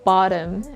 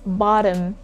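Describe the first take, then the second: Both takes have the same delivery.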